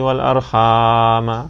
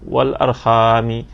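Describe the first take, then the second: First: The word ends with a short 'a' vowel. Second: The word ends with a short 'i' vowel. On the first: Fear God and fear cutting the ties of kinship. "ada baris atas" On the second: The ties of kinship by which you ask one another. "bacanya dengan baris bawah"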